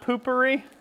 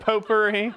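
First: It is said like poop with an -ery ending. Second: It is said with the full French-style ending. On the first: The speaker calls it wrong. "It's not poopery" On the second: The speaker calls it right. "that's how you say it"

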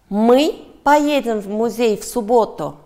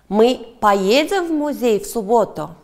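First: The stress falls on the word 'мы'. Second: The stress falls on the word 'поедем'. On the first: The question asks who is going. "Да, мы" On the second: The question asks whether they will go. "Да, поедем"

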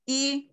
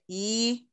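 First: The vowel is short and released at once. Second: The vowel is drawn out and lengthened. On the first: The speaker calls it right. "Jadi dia hanya langsung keluar aja i" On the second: The speaker calls it wrong. "enggak pakai i, bi gitu. Enggak dipanjang-panjangin"

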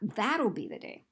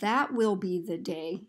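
First: The first two words are contracted to 'that'll'. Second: The first two words are said in full as 'that will'. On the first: The speaker calls it right. "we emphasize that'll. So we say" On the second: The speaker calls it wrong. "Rarely will we ever say, well, that will be the day. We don't say each word individually"

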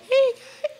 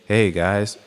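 First: It is said in a tiny baby voice. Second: It is said in a fairly low voice.

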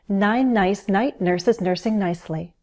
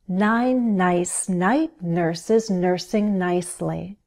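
First: The phrase is said quickly. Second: The phrase is said slowly and carefully. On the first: "How fast can you go?" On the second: "Go slow at first and find the rhythm"

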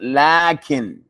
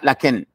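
First: The first vowel is long. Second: The first vowel is short. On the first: The speaker calls it right. "there is an aleph that is pronounced" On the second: The speaker calls it wrong. "this is not lakin"

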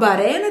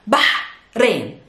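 First: The h is plain, without a throaty sound. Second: The h is a throaty, breathy ha sound. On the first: The speaker calls it wrong. "It's not Bahrain" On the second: The speaker calls it right. "it's Bahrain. There's a ha sound"

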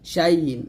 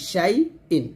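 First: The hamza is replaced by a gliding y sound. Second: The hamza is a clear glottal stop from the throat. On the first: The speaker calls it wrong. "হামজাটা আমরা ইয়াটের মতো করে ফেলি, শাই ইন, এরকম উচ্চারণ করি।" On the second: The speaker calls it right. "হামজাটা হলকে শুরু থেকে বলতে হবে।"

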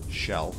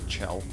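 First: The name begins with a soft sh sound. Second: The name begins with a hard ch sound. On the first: The speaker calls it wrong. "it's how you would pronounce the name Michelle" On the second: The speaker calls it right. "I need to say Chell"

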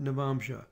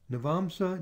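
First: The last syllable uses an sh sound. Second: The last syllable uses a plain s sound.

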